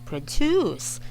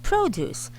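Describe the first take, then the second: First: The stress is on the second syllable. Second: The stress is on the first syllable. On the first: It means to make something. "nasa second syllable ang stress" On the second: It means fruits and vegetables. "stressed syllable for the gulay or the fruits is on the first syllable... this sounds higher"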